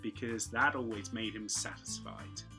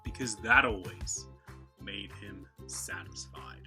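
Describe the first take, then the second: First: British accent, the t in 'that always' clear. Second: American accent, the t in 'that always' blended. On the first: "Standard English" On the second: "the Americans blend those two together"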